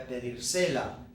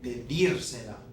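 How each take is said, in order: First: The stress falls away from the syllable 'dir'. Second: The stress falls on the syllable 'dir'. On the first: The speaker calls it wrong. "if I don't do anything to this verb, verb right now, what we would say is voy a pedírsela" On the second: The speaker calls it right. "put an accent back on that original last syllable of the verb"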